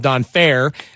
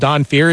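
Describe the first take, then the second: First: The surname rhymes with the word fair. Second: The surname rhymes with the word fear. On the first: The speaker thinks he is a good guy. "If you think he's a good guy, his name's Don Fair" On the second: The speaker is afraid of him. "If you're afraid of him, I guess his name's Don Fear"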